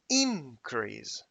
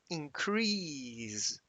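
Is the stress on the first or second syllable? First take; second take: first; second. First: The stress is on the first syllable. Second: The stress is on the second syllable. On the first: It is used as a noun. "when it is a, a noun, we shift the the stress" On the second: It is used as a verb. "when, for example, the word increase is a verb, the pronunciation is increase"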